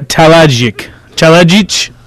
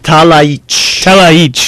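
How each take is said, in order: First: The j is pronounced as a hard j sound. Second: The j is pronounced as a soft y sound. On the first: The speaker calls it wrong. "I'm going to say this wrong" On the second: The speaker calls it right. "Yes, the J's are soft"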